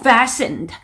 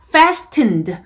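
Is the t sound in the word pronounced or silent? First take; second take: silent; pronounced. First: The t sound in the middle is silent. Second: The t sound in the middle is pronounced. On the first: The speaker calls it right. "t 소리 빼시고 fastened" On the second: The speaker calls it wrong. "fastened 라고 잘못 발음하신 분들이 있었습니다"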